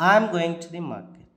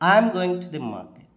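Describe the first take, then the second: No difference in how they are said.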